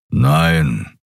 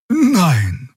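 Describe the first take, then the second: First: Lower, rumbling no; Keru's grumble. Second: Higher, simple honest no; just the plain truth, lightly; truthful Xia. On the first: Keru grumbles his answer to the guard, lower. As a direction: growl the word from deep down. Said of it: "brummte Keru". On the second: Xia answers the guard honestly, higher. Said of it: "antwortete sie wahrheitsgemäß". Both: A narrator's reading.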